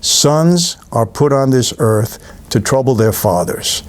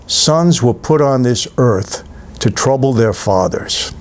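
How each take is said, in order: First: Slow, grave repeat of the father's line; Paul Newman's line. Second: Slow, grave quoting of the father's line; Paul Newman's line. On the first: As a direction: savour each word, slow and weighty. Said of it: "did you hear that?". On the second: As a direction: lean into it slowly like a weary old mob boss. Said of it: "And he says". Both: Retold or imitated.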